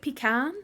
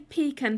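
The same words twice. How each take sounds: First: It is said in an American pronunciation. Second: It is said in the speaker's own non-American pronunciation. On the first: "Americans pronounce it pecan" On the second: "I say pecan"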